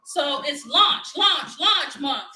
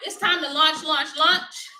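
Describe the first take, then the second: First: Launch, launch, launch month, slow and punched; rhythmic repetition. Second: Launch, launch, each launch hit in rhythm; rhythmic repetition. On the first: Host hyping viewers for launch month, rhythmic slow chant. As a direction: chant launch like a rallying beat. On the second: Host urging viewers to launch now, rhythmic chant. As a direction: drum the word launch into them. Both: Real, not acted.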